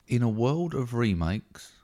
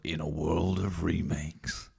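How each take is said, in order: First: It is read in a normal speaking voice. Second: It is said in a deep movie-trailer voice.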